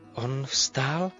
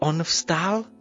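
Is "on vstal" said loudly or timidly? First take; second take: timidly; loudly. First: It is said softly and hesitantly. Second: It is said louder and more firmly. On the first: "Nejdřív říká nesměle" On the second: "pak hlasitěji"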